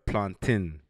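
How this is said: It is said with a Caribbean pronunciation. "Caribbeans say plantain"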